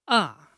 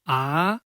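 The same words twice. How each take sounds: First: The pitch falls sharply from high to low. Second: The pitch rises from middle to high. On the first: "Falling tone. The pronunciation is descending" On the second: "rising tone. pronunciation is raised"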